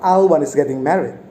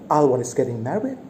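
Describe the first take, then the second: First: It sounds like a plain informing statement. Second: It sounds like an astonished, surprised question.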